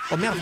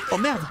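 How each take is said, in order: Both takes have the same delivery.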